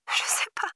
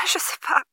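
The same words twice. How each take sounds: First: Softer, breathy whispered sob; tearful whisper. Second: Higher, tearful cry; sobbing. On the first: Girl whispering through sobs to the operator. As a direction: fade into a broken whisper. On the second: Girl sobbing to the operator. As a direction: choke it out through tears. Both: A narrator's reading. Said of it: "Ils l'entendirent sangloter".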